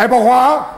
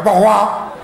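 First: It is said in an angry, worked-up voice. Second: It is said in an angry, worked-up voice.

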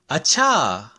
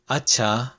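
First: It is said in a tone of sudden realization. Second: It is said in a plain, agreeing tone. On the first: It means oh. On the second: It means okay.

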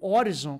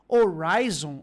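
First: The name is pronounced in a Brazilian Portuguese way. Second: The name is pronounced in an English-like way.

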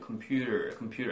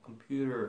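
First: The word ends without an r sound. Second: The word ends with a clear r sound. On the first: "우리들은 보통 이러죠" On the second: "computer 하면서 r. 이 r 발음을 내요"

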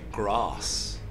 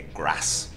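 First: The vowel in grass is long. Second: The vowel in grass is short. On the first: It is how an elf speaks. "an elf would say" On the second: It is how a Southlander speaks. "The A sounds are short, A Southlander would say"

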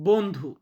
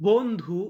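The two takes are said the same way.

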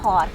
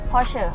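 First: The name is pronounced the English way. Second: The name is pronounced the German way. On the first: "ทางฝั่งอังกฤษนะเขาจะออกเสียงไม่ได้, เขาก็เลยออกเสียงว่า" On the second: "ภาษาเยอรมันจะออกเสียงคล้ายๆแบบ"

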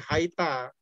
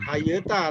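First: No vowel is heard between the y and t. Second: A vowel is heard between the y and t. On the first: The speaker calls it right. "tapi Haita" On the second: The speaker calls it wrong. "Jadi bacanya bukan Hayeta"

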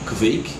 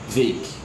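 First: The first consonant sound is clearly pronounced. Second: The first consonant sound is almost swallowed.

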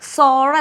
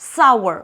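First: The vowel is a plain o sound. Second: The vowel glides like ow before the r. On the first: The speaker calls it wrong. "സോർ അല്ല കേട്ടോ" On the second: The speaker calls it right.

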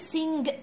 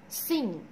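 First: A hard g is released at the end. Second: It ends on ng with no hard g. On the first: The speaker calls it wrong. "مش عايزاك تقول سينج" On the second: The speaker calls it right. "لا مش عايزاك تنطق الجي"

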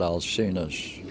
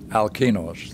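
First: The name begins with a soft S sound. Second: The name begins with a hard K sound. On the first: The speaker calls it wrong. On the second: The speaker calls it right.

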